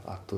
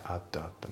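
First: "at that" as "atto zatto"; T pronounced. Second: Soft "at" with the T held back; dropped T. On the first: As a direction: give "at that" a full "to" after each word. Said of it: "じゃなくて". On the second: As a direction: stop short of the T in "at". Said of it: "atのTが抜けますね". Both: Shown as a demonstration.

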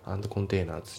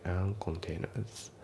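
First: "and containers" as "ando containers"; D pronounced. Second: Slow "and containers" as "an containers"; dropped D. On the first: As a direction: add a full "do" at the end of "and" in "and containers". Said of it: "じゃなくて". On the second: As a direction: glide from "an" into "containers" with no D. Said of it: "andのDが抜きますね". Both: Shown as a demonstration.

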